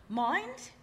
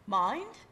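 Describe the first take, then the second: First: Higher, rising British "Mind?"; a light British accent on "Mind?". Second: Said in the usual way. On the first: Retold or imitated. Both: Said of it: "I'm trying to do her, her British accent".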